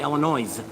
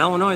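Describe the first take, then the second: First: The word ends with an audible s sound. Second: The word ends with no s sound. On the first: The speaker calls it wrong. "Ninety-nine percent of people say Illinois" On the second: The speaker calls it right. "there is no noise in Illinois"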